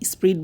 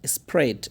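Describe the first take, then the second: First: The vowel is a long 'ee' sound. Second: The vowel is a short 'eh' sound. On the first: The speaker calls it wrong. "স্প্রিড বলি না আমরা" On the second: The speaker calls it right. "স্প্রেড বলেন"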